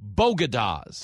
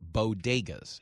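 First: The second syllable sounds like 'gah'. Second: The second syllable sounds like 'day'. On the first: The speaker calls it wrong. "called them Bogadas" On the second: The speaker calls it right. "if you wanted me to pronounce it, bo-day, like day-ga"

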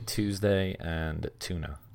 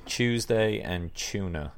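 First: The words begin with a plain 't' sound. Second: The words begin with a 'ch' sound. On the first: "I've been here too long, so I say Tuesday and tuna" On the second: "we say Tuesday and tuna"

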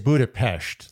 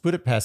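First: It is said with the original, non-American pronunciation. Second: It is said with an Americanized pronunciation. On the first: This is the correct way to say it. "if you really want to say it right" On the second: This is the usual American way to say it.

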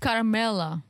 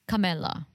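First: The name is said with an R sound. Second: The name is said without an R sound. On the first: The speaker calls it right. "It's Carmella" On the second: The speaker calls it wrong. "Silent R"

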